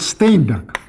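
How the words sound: The name is said in a Russian way. "Russian translation of his book, there he is called Steinberg"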